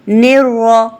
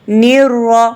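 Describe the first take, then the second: The two takes are said the same way.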